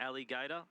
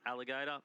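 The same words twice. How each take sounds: First: Alligator with Ali stressed and split off. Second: Said in the usual way. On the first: Shown as a demonstration. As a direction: say Alligator as Ali, pause, gator. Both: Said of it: "Ali is her nickname".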